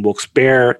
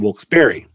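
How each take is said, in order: First: The name ends in one syllable, like 'bear'. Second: The name ends in two syllables, like 'berry'. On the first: "I always used to say Wilkes Bear" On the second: "they could say it the correct way"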